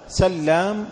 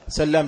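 First: The l sound is doubled and held longer. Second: The l sound is single and short. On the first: "بتشديد اللام" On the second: "بتخفيفها"

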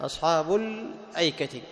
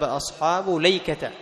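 First: A glottal stop is heard before 'ayka'. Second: No glottal stop; it is said 'layka'.

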